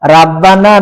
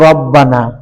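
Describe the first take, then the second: First: The first vowel is a light, open aa. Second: The first vowel is a heavy, rounded o. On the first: The speaker calls it wrong. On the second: The speaker calls it right.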